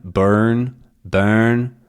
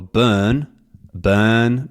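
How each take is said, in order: First: BURN with the R sounded; rhotic R. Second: BURN as "buhn"; R dropped. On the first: Teacher comparing burn in both dialects, sounded R. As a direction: colour the vowel of BURN with R. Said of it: "rhotic and non-rhotic dialects". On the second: Teacher testing non-rhotic burn, dropped R. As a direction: hold the vowel of BURN with no R. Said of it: "lack of an R". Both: Shown as a demonstration.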